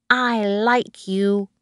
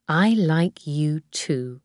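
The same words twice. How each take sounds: First: Put-on slow, higher small boy's voice; Tim. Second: Slow, tender adult reply. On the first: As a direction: tell her affectionately, like a little child. Small boy's affectionate good night. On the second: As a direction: answer the child gently, unhurried. Nanny answers the child. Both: A narrator's reading.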